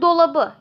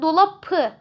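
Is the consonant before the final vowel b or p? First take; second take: b; p. First: The consonant before the ending is a soft b. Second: The consonant before the ending is a hard p. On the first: The speaker calls it right. "dolabı şeklinde yumuşamış oluyor" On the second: The speaker calls it wrong. "dolapı diyemeyeceğimize göre"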